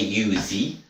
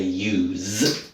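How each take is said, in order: First: The silent e is voiced as an extra vowel. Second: The word ends on a z sound, no vowel. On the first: The speaker calls it wrong. "We don't say usey" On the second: The speaker calls it right. "we say use"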